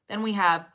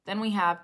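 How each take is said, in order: Both takes have the same delivery.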